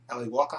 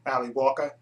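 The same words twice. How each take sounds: First: Ali Walker with a light Australian accent, Walker rising at the end. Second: Said in the usual way. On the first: Shown as a demonstration. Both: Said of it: "I said that with an Australian accent".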